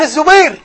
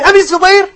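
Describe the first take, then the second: First: "Az-Zubayr", raised voice, no "bi" syllable; distinct name form. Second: "Abi Zubayr", raised voice, clear ee after the b; distinct name form. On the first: Teacher stressing experts know the difference, "Az-Zubayr" distinctly. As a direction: say "Az-Zubayr" with z straight after A. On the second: Teacher stressing experts know the difference, "Abi Zubayr" distinctly. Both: Shown as a demonstration. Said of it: "know the difference between".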